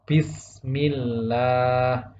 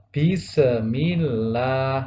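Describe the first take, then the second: First: The s is held smoothly without a bounce. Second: The s ends with a bouncing echo. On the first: The speaker calls it right. "yang benar adalah" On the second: The speaker calls it wrong. "sinnya dipantulkan menjadi qalqalah"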